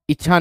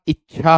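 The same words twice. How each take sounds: First: इच्छा with a single light chh; wrong-form इच्छा without the held stop; mispronounced इच्छा. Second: इच्छा with a doubled, held ch-chh; careful इच्छा with a stop before chh; corrected इच्छा. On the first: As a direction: say इच्छा as i-chha, no doubled consonant. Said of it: "इच्छा नहीं होता". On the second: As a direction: say इच्छा as ich-chhaa, leaning on the double consonant. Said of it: "इच्छा होता है". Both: Shown as a demonstration.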